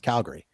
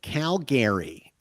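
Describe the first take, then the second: First: One vowel in the name is dropped. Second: Every vowel in the name is fully sounded. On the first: A local is saying it. The speaker calls it right. "we pronounce it as Calgary" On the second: An outsider from the east is saying it. The speaker calls it wrong. "that's actually how it's spelled"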